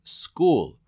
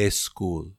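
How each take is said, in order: First: School said slowly, with a clean s straight into k, no e before it; correct school. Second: School said with a soft low extra e, as eskul. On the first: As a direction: school with no vowel before the s, said carefully. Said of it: "Se dice". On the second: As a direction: school with an added e sound before the s, said low and soft. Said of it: "y no está bien". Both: Shown as a demonstration.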